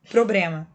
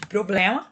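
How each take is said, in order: First: The consonant after the B is an R. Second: The consonant after the B is an L.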